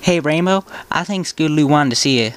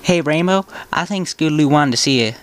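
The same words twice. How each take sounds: First: It is read in a put-on character voice. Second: It is read in a put-on character voice.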